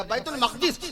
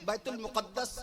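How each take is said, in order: First: "بیت المقدس" as bait-ul-maqdis; eloquent correct pronunciation. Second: "بیت المقدس" as bait-ul-muqaddas; common pronunciation. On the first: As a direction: say "بیت المقدس" with maq-dis, no doubled d. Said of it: "باقاعدہ تلفظ اس کا بنے گا". ("بیت المقدس" میں میم پر زبر، قاف ساکن، دال پر زیر) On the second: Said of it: "بیت المقدس صحیح تلفظ اس کا". ("بیت المقدس" میں میم پر پیش، دال پر تشدید) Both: Shown as a demonstration.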